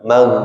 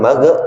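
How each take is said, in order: First: The gh sound flows smoothly without bouncing. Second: The gh sound bounces with a short release. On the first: The speaker calls it right. "tapi mag ngalir suaranya ngalir" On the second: The speaker calls it wrong. "bukan mag"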